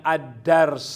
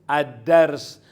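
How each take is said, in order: No difference in how they are said.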